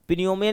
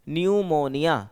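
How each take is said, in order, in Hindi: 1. यह शब्द n से पहले p की ध्वनि से शुरू होता है। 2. यह शब्द सीधे n की ध्वनि से शुरू होता है। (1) "पिन्यूमिया नहीं पढ़ रहे इसको हम" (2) "तो पी यहाँ पर साइलेंट है"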